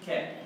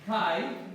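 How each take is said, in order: First: The vowel is sounded as a plain 'e'. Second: The vowel is sounded as the diphthong 'ai'. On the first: This is the later pronunciation. "eventually became" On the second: This is the older pronunciation. "the way you say and in Greek"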